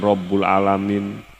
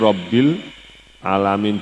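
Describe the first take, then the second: First: The vowel after Rabb is u. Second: The vowel after Rabb is i. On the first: The speaker calls it wrong. "bukan Rabbul alamin" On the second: The speaker calls it right. "Habis lillahi itu Rabbil alamin"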